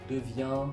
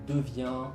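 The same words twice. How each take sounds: Both takes have the same delivery.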